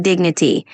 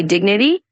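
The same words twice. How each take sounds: First: Dignity with the "dig" clearly stressed; stress on first syllable. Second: Said in the usual way. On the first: Shown as a demonstration. Tutor showing Brian the stress in dignity, first syllable. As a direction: hit the "dig" of dignity, keep the rest light. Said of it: "just emphasize the first syllable". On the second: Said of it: "when you say dignity".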